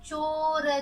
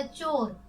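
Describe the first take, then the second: First: चोर split as a long चो, then र; चोर stretched into चो... र; sounded out. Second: Said in the usual way. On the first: Shown as a demonstration. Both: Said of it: "उसे चोर कहते हैं".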